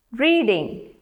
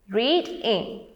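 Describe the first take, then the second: First: Said in the usual way. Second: "reading" as read, break, ing; broken into syllables. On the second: Shown as a demonstration. Teacher letting learners hear two beats, "reading" split in two. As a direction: sound out both beats of "reading". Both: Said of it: "You hear two beats there".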